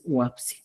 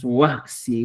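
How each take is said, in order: First: "huapsi" with p-s in the middle; standard pronunciation. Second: "Huaxi" with a k-s in the middle; Cusco pronunciation. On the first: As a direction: say "huapsi" as wap-si, standard form. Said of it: "la estandarizada original es huapsi". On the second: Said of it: "el quechua de Cusco, por ejemplo, decimos". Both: Shown as a demonstration.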